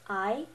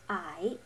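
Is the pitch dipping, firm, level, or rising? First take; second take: rising; dipping. First: The pitch rises like a question. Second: The pitch dips down then rises. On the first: "pretend like you're asking a question" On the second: "you lower and raise your voice"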